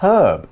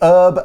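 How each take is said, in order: First: The word begins with an audible H sound. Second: The word begins without any H sound. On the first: This is how it is said in the UK. "In the U K we say herb and we pronounce that H" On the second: This is how it is said in the States. "In the States they tend to say herb and leave off the H sound"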